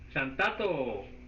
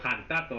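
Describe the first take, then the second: First: The word starts with an s-like sound. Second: The word starts with a throaty h sound.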